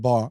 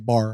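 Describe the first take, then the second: First: The final R sound is dropped. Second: The final R sound is pronounced. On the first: "maybe you heard a dropped R" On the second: "I don't say bar"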